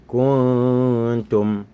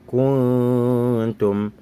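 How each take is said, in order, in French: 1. Le N est caché, il se fond dans un son nasal. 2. Le N est caché, il se fond dans un son nasal.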